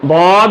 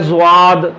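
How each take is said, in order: First: It begins with a plain 'd' sound. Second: It begins with a 'zw' sound. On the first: The speaker calls it right. "लिहाजा ये बाद होगा" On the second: The speaker calls it wrong. "ज्वाद तो वैसे ही अजमी सौत है"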